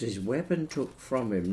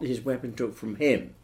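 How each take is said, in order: First: The final word is unstressed. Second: The final word is stressed. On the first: The speaker calls it right. "They will all have an unstressed final syllable" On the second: The speaker calls it wrong.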